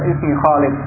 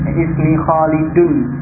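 First: The name ends on a bare final consonant. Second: The name ends with a full 'un' ending. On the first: The speaker calls it wrong. "jadi tidak sekedar ismi Khalid atau ismi Khalil, ya itu benar, itu boleh" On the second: The speaker calls it right. "Khalidun dengan dhammah, dengan tanwin itu juga dibaca dhammah dan tanwinnya"

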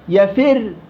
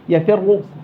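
First: The final r is light and thin. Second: The final r is heavy and thick. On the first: The stop is treated as a plain silent ending. "الإشمام مثل السكون المحض ... أنا رققت" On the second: The stop keeps part of the vowel's movement. "يفر مفخمة"

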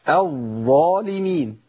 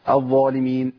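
First: The voiced doubled consonant is held steadily before moving on. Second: The voiced doubled consonant is rushed over quickly. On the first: The speaker calls it right. "انا جبتها كده صواب بالشكل الصحيح" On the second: The speaker calls it wrong. "طب الخطا فين يا شيخ؟ ... دايما بحذر من الجري"

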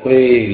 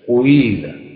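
First: A brief u-shade comes before the i. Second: A full u-sound comes before the i. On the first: The speaker calls it right. "لما أقول وإذا قيل" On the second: The speaker calls it wrong. "القراءات أو التطبيق الخاطئ. بعضهم يقول"

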